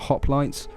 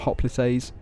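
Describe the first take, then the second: First: It is said in the familiar anglicized way. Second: It is said in a Greek-style way. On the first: This is the form most listeners know. The speaker calls it right. "I'm going to pronounce them hoplites" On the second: This imitates how a Greek would say it. The speaker calls it wrong. "sounds kind of silly"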